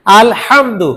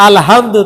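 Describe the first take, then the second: First: "আলহামদু" with a sharp pharyngeal ha; correct throaty ha. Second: "আলহামদু" with a plain round h. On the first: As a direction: say the হা in "আলহামদু" from mid-throat, not round. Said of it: "এই হাটা যদি গোল হা দিয়ে পড়ি". ("আলহামদু"-তে গলার মাঝখান থেকে হা) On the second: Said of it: "গোল হা দিয়ে পড়ি". ("আলহামদু"-তে গোল হা) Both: Shown as a demonstration.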